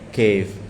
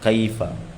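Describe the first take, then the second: First: The word ends on the final consonant. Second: The word ends with a final vowel. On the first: This is the everyday spoken form. The speaker calls it wrong. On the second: This is the form that follows the rules. The speaker calls it right. "Iqra qira'atan sahihah"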